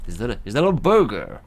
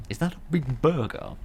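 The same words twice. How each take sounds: First: Loud, hammed-up American accent; bad American accent. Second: Said in the usual way. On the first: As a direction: put on an unconvincing American twang, loudly. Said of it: "what kind of American accent that is".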